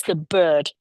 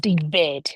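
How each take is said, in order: First: BIRD with a central "er" vowel. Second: BIRD said as "bed", with an open "eh"; wrong E vowel. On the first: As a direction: say BIRD firmly as "berd". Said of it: "It's the bird". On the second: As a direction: mispronounce BIRD as "behd". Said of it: "it's certainly not". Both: Shown as a demonstration.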